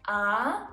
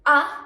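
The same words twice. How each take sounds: First: The vowel is held long. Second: The vowel is cut short. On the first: "A can be pronounced long" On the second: "Or short"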